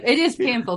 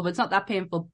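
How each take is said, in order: First: "is" lifted and pushed louder; stress on is. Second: Weight on "not" in "not that painful"; stress on not. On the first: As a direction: lean on "is" in "it is painful". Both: Real, not acted.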